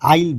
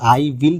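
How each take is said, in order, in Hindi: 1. यह एक छोटे, संक्षिप्त अक्षर की तरह बोला जाता है। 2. यह दो अलग-अलग पूरे शब्दों की तरह बोला जाता है। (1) "आइल बोलना है" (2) "आई विल नहीं बोलना है आपको"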